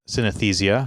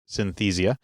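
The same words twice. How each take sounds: First: The word is said with an extra syllable. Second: The word is said without the extra syllable. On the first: The speaker calls it wrong. "we're adding an extra syllable in there" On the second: The speaker calls it right. "it's actually just synesthesia"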